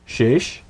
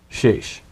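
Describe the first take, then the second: No difference in how they are said.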